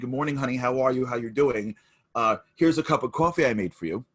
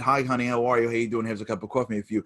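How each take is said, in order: First: It is said warmly, with engagement. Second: It is said flatly, like a sleepwalker.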